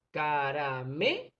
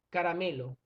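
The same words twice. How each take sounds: First: "caramelo" slowly, syllable by syllable; split into syllables. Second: Said in the usual way. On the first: Shown as a demonstration. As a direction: break "caramelo" into ca-ra-me-lo, drawing it out. ("caramelo" separado en sílabas, lentamente) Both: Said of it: "Vamos a separar en sílaba".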